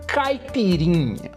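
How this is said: It is said with a native Brazilian Portuguese pronunciation. "that's the correct pronunciation that you foreigners can never say correctly"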